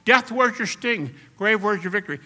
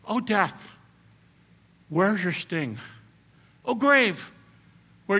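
First: Defiant taunt. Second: Poetic recital. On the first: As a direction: fling the question in death's face. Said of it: "That's the way Paul's talking". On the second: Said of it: "Paul is not speaking like a poet". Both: Retold or imitated.

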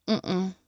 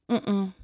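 No difference in how they are said.

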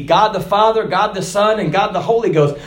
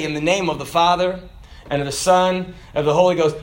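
First: Said in the usual way. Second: Ritual baptism formula. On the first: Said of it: "It just said that that is the authority". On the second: Shown as a demonstration. Preacher reciting the baptism words at the water, solemn and low. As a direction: recite it like you dunk someone. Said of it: "Now, I'll say".

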